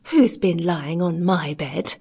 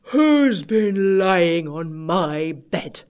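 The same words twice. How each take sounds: First: Slow, lightly voiced middle bear; a hint of a middle bear, slowly; middling-sized bear voice. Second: Very slow, drawn-out big bear; great big bear voice. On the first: Middling-sized bear finds bed rumpled, lightly voiced and slow. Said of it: "in a middling-sized voice". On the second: Great big bear finds bed rumpled, in a great big voice. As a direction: boom it out slowly as a huge bear. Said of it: "in his great big voice". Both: A narrator's reading.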